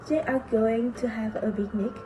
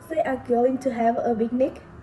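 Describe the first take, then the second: First: The voice falls at the end. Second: The voice rises at the end. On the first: It states a fact. "usually said as a statement like that" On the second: It asks a question. "The sentence survives as a question here"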